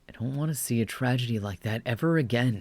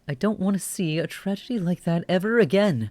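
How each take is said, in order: First: It is read in a plain, neutral voice. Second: It is read in a put-on character voice. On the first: The narrator says it. "Do a neutral voice for this" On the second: The detective character says it. "This is totally detective guy"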